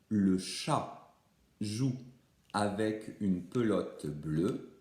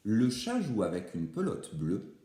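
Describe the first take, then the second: First: It is said very slowly, word by word. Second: It is said at normal speed, in one go.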